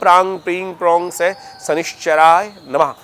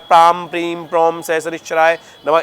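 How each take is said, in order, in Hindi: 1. बीज अक्षर ng ध्वनि पर खत्म होते हैं। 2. बीज अक्षर m ध्वनि पर खत्म होते हैं। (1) "वो अनुस्वार है, तो अंगा अंग इस प्रकार से इसका उच्चारण रहता है" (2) "मकार भी बोल देते हैं, तो वो भी कोई दिक्कत नहीं है"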